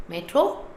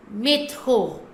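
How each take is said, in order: First: MÉTRO as "MET-ro", rising; English pronunciation. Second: MÉTRO as "may-TKHO", throaty French r; French pronunciation. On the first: Teacher contrasting with French, English pronunciation. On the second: Teacher demonstrating the French word, French pronunciation. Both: Shown as a demonstration. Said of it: "another example is métro".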